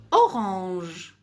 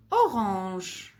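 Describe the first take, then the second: First: Orange said clearly, stressing the O; model word. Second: Said in the usual way. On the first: Shown as a demonstration. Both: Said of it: "quand tu entends O".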